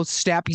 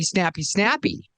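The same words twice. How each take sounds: First: Said in the usual way. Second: Quick snappy. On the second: Shown as a demonstration. Acting out snappy city speed.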